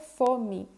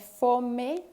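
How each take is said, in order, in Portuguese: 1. A vogal final soa como 'ee'. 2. A vogal final soa como 'e'. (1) "mas se pronuncia fome" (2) "Se escreve fome"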